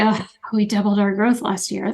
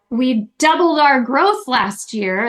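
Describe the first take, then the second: First: It sounds flat and unenthusiastic. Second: It sounds victorious and celebratory.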